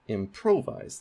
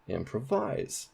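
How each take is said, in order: First: The stress is on the second syllable. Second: The stress is on the last syllable. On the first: "that is primary stress on pro" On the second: "Now let's put primary stress on vise"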